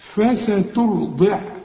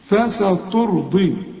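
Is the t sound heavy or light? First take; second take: light; heavy. First: The t sound is light and thin. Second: The t sound is heavy and thick. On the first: The speaker calls it right. "التاء رقق" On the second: The speaker calls it wrong. "برضو الخطأ اللي بنقع فيه"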